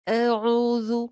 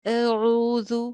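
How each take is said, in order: No difference in how they are said.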